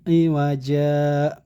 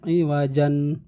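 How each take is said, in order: First: The word ends on a lengthened vowel. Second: The word ends with an n sound. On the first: The speaker calls it right. "tanwinnya dihilangkan, akan tetapi dipanjangkan saja du- sa- dua harokat" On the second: The speaker calls it wrong. "bukan iwajan, bukan seperti itu ya"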